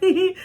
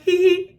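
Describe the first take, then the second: First: High, playful little hee hee; giggle. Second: High, playful answering hee hee; giggle back. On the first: The mom giggling at her whenever they met, playful giggle. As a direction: giggle it back sweetly. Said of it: "she was like". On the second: Greeting the mom back with a playful giggle. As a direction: giggle back at her warmly. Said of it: "And I was like". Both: Retold or imitated.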